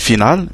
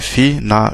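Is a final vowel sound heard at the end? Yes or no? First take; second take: no; yes. First: The word ends on the consonant, no final vowel. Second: The word ends with an audible final vowel sound. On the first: The speaker calls it wrong. "on ne dirait pas ici final" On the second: The speaker calls it right. "mais on dirait finale"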